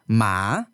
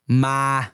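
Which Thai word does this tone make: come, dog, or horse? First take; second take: dog; come. First: It is said with the tone for 'dog'. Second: It is said with the tone for 'come'. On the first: Dog. "ma means dog" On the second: Come here. "ma means come here"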